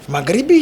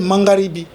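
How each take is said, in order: First: The word has no n sound before the g. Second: The word has an n sound before the g. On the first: This is the common form of the word. "dans mon Swahili euh, du sud du pays" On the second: This is how the speaker's southern dialect says it. "chez moi, s'appelle Mangaribi"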